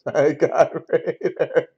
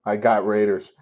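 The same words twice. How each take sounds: First: Slow, drawn-out quote through laughter; laughing mimicry. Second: Said in the usual way. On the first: Streamer laughing at a chatter's claim, slow amused mimicry. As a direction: repeat his words slowly, cracking up. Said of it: "This guy says, "I got Raiders". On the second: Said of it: "says, "I got Raiders".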